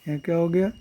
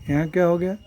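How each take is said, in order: The two takes are said the same way.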